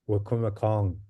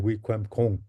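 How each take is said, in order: First: The name begins with a 'wa' sound. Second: The name begins with a 'wik' sound. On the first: This is the common English-influenced version. The speaker calls it wrong. "you hear people say it is still Wakuma Kong" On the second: This is the original version. The speaker calls it right. "the word is actually Wikwem Kong"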